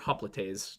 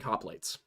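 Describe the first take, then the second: First: The word is said in a more careful way. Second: The word is said in an everyday way. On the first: The speaker calls it right. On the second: The speaker calls it wrong.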